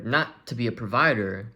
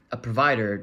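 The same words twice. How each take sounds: First: Not leaned on, rising at the end; not said with a lift, tune rising; stress on not. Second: Said in the usual way. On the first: Shown as a demonstration. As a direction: hit the word not to correct yourself.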